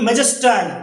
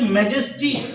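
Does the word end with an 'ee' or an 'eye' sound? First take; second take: eye; ee. First: The word ends with an 'eye' sound. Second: The word ends with an 'ee' sound.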